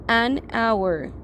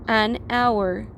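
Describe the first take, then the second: No difference in how they are said.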